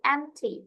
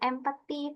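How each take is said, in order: First: The p sound is silent in the word. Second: The p sound is pronounced in the word. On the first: The speaker calls it right. "P-nya di silent aja" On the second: The speaker calls it wrong. "Bukan empathy"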